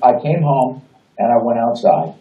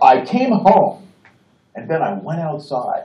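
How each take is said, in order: First: It is said plainly and conversationally. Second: It is said with deliberate, acted emphasis.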